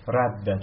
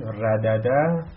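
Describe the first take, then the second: First: رده with one doubled d, rad-da; assimilated form. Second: ردده with both dal sounds said apart, ra-da-da; unassimilated form. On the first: Teacher shows students how ردده becomes رده. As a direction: say رده with a single held, doubled d. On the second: Teacher shows the class the full ردده before merging. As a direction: say ردده slowly with two separate d sounds. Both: Shown as a demonstration. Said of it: "نگاه کنید".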